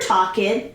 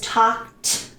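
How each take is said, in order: First: The ending is said as an extra 'ed' syllable. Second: The ending is said as a short 't' sound. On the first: The speaker calls it wrong. "I hear talked, but no, it's wrong" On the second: The speaker calls it right. "Pronunciation T. ... It is talked"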